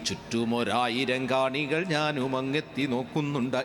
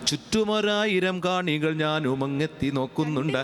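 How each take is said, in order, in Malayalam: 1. കവിതയുടെ ഒരേ താളക്രമം പാലിക്കുന്നു. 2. ഭാവമുള്ള ഇടവേളകളോടെ സ്വതന്ത്രമായി ചൊല്ലുന്നു. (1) "കവിതയുടെ താളം" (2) "പക്ഷെ ഞാൻ ചൊല്ലുന്നത് അങ്ങനെയല്ല"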